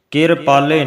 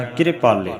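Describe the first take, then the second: First: ਕਿਰਪਾਲੇ as ker-paale, vowel before the r; ਕਿਰਪਾਲੇ split ker-paale with rising end; wrong pronunciation. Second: ਕਿਰਪਾਲੇ as kri-paale, short i after the r; ਕਿਰਪਾਲੇ with light kiri- onset and falling end; correct pronunciation. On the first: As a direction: close the first syllable of ਕਿਰਪਾਲੇ on r. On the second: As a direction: tuck the r of ਕਿਰਪਾਲੇ into the k. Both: Shown as a demonstration. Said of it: "ਨਹੀਂ ਕਹਿਣਾ".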